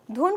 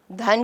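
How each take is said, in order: First: دھن pronounced with "u", not "a"; dhun pronunciation. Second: دھن pronounced with "a", not "u"; dhan pronunciation. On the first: Teacher explaining word usage, دھن said "dhun". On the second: Teacher explaining word usage, دھن said "dhan". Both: Shown as a demonstration. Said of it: "دونوں لفظوں کا فرق واضح".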